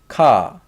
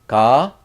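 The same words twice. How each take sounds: First: Ka, loud K onset, falling tune; K sound demo. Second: Ka, G-like onset, loud and rising; G-like sound demo. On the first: Teacher showing a little bit different sound, "ka" as falling K. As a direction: say "ka" with a strong K, dropping in pitch. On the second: Teacher showing a little bit different sound, "Ka" as rising G. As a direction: say "Ka" close to "ga", lifting at the end. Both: Shown as a demonstration. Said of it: "G sound and k sound".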